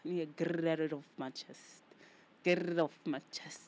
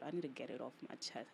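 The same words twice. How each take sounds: First: Louder, pushed repeat; emphatic. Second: Said in the usual way. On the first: Shown as a demonstration. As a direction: push the words out harder. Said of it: "repeats line louder". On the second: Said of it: "repeats line".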